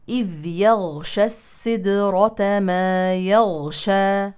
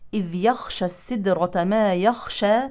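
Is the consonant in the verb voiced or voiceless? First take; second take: voiced; voiceless. First: The verb has a voiced throat consonant. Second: The verb has a voiceless breathy throat consonant. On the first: The meaning is covering. The speaker calls it right. "إذن نقول" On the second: The meaning changes to fearing. The speaker calls it wrong. "فالبعض يقول يخشى بدل يغشى"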